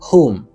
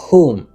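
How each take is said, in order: No difference in how they are said.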